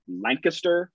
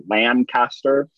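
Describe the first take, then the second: First: Lancaster said LANK-uh-ster, middle reduced; local pronunciation. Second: Lancaster said LAN-CAST-er, full middle vowel; outsiders' pronunciation. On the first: Ex-resident names his Pennsylvania town, local pronunciation. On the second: Host shows how other people say the town, outsiders' pronunciation. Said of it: "nearly every other person says". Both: Shown as a demonstration.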